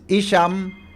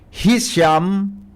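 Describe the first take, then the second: First: The initial H sound is left silent. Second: The initial H sound is clearly pronounced. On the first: This is how other people say the name. "Kaya ang iba, silent H" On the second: This is how a listener says the name is said. "Sabi kan texter ta, ang pag-pronounce na kan ngaran ni Mayor Hisham"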